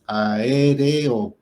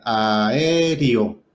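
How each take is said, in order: First: "aéreo" said very slowly with a clear E, a-é-re-o; the correct pronunciation slowly modelled; careful correct E. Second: "aéreo" said as aério, the E turned into an I; the common mistaken pronunciation; wrong E as I. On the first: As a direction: stretch out "aéreo" and hold every vowel. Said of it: "porque no es con I". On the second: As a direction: say "aéreo" with an I sound. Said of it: "tendemos a volver la E en I". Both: Shown as a demonstration.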